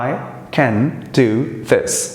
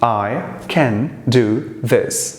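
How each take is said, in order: First: The word 'can' has a full, clear vowel. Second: The word 'can' has a full, clear vowel.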